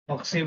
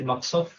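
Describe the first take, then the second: First: The last syllable has the vowel 'i'. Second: The last syllable has the vowel 'a'. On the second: "or can be said maqsaf"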